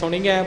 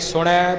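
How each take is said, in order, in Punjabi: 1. ਸ਼ਬਦ ਦੀ ਆਖ਼ਰੀ ਧੁਨੀ 'iai' ਹੈ। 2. ਸ਼ਬਦ ਦੀ ਆਖ਼ਰੀ ਧੁਨੀ 'ai' ਹੈ। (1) "ਕਈ ਸੁਣੀਐ ਬੋਲ ਜਾਂਦੇ ਨੇ" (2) "ਕਈ ਸੁਣੈ ਬੋਲ ਜਾਂਦੇ ਨੇ"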